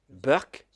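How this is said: Work is said with a b, Indian English style.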